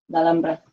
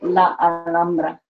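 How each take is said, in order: First: The two a sounds merge into one. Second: The two a sounds are said separately. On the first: The speaker calls it right. "It combines together because it's the same sound" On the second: The speaker calls it wrong. "So I don't say La, um, La Alhambra"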